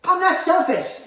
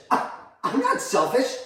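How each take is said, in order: First: Very high, loud protest; outraged denial. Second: High, slow, stunned denial; affronted disbelief. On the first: Mother accused of being selfish, outraged. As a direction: burst out in indignant denial. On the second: Mother accused of being selfish, affronted disbelief. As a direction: deny it slowly, taken aback. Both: Acted.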